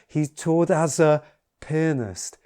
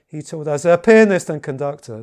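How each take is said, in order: First: It gets louder, slows down and pauses. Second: It only gets louder, without slowing or pausing.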